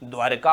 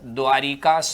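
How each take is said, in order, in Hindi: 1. 'dwar' और 'ka' के बीच कोई स्वर नहीं आता। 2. 'dwar' के बाद एक अतिरिक्त i स्वर आता है। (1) "शुद्ध शब्द कैसा होगा" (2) "हम लोग अक्सर क्या पढ़ते हैं"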